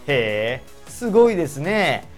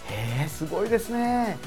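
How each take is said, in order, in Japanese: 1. 棘があって、皮肉に聞こえます。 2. 温かくて、本心に聞こえます。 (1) "剣のある言い方になってしまうと" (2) "本当に褒めようとした時に"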